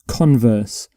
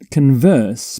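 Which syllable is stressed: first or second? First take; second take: first; second. First: The stress is on the first syllable. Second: The stress is on the second syllable. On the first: It names the opposite of a statement. The speaker calls it right. "you put the stress on the first syllable" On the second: It means to have a conversation. The speaker calls it wrong. "not converse"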